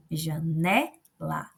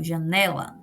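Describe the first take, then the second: First: "janela" drawn out slowly, stretching the middle "ne"; very slow, divided "janela" for a class; syllable by syllable. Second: Said in the usual way. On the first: Shown as a demonstration. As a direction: slowly split "janela", lingering on "ne" before "la". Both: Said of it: "A do meio é a antepenúltima".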